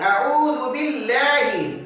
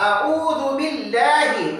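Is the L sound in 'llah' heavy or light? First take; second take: light; light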